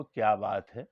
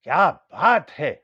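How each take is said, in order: First: کیا بات ہے said as a simple, unexcited enquiry; سوالیہ انداز. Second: Loud, drawn-out کیا بات ہے of admiration; داد و تحسین. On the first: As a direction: ask کیا بات ہے as a plain question, lifting at the end. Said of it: "میں نے آپ سے سوال کیا". (کیا بات ہے، سیدھا سادہ سوال) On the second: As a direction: stretch each word of کیا بات ہے, booming with praise. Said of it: "بہت فینٹاسٹک، بہت اچھی چیز ہے". (کیا بات ہے، کھینچ کر بلند آواز میں داد) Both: Shown as a demonstration.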